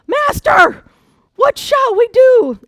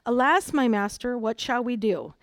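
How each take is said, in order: First: It sounds like an urgent, frightened exclamation. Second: It sounds like calm, formal reading aloud.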